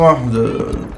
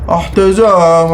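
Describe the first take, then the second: First: Said in the usual way. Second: احتزام stretched slowly, each sound held; slow mock call of احتزام; drawn-out word. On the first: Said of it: "احتزام". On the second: Shown as a demonstration. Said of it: "احتزام drawn out".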